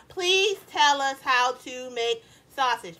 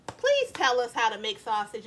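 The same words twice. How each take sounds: First: Slow, every word spelled out. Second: Said in the usual way. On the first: Shown as a demonstration. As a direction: dictate it slowly so they type it all. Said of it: "actually type out that whole sentence".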